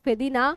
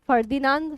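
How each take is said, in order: First: The name ends with a nasalized vowel. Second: The name ends with a full 'nand' sound. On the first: "ফেদিনা এরকম উচ্চারণ করা হয় চন্দ্রবিন্দু দিয়ে" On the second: "ফার্দিনান্দ দা শ্বশুর এরকমও বলা হয়"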